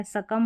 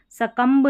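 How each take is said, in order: First: सकम finishing on m; silent b. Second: सकम्ब with its final b wrongly voiced; mispronounced सकम्ब. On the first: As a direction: leave सकम without any b. (सकम, ब silent) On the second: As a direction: sound out the b in सकम्ब. (सकम्ब के अंत में ब बोलकर ग़लत उच्चारण) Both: Shown as a demonstration. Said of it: "बी का उच्चारण नहीं करना".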